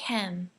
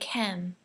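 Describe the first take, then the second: First: The vowel is short and flat. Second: The vowel is short and flat.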